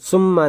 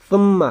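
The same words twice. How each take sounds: First: The word begins with a hissing s sound. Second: The word begins with a th sound. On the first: The speaker calls it wrong. "सीन से नहीं" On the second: The speaker calls it right. "सा से इस वर्ड को पढ़ना है"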